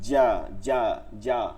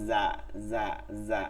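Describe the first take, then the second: First: The consonant is hard, with the air stopped. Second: Air keeps flowing through the consonant. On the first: The speaker calls it right. "মাঝখান থেকে লাগাইয়া শক্ত" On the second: The speaker calls it wrong. "যা বাতাস চলে"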